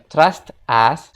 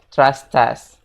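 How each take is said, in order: First: The two words are said separately. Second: The two words are linked into one. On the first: "secara basic kita bilangnya" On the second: "secara native speaker-nya kita bisa bilang"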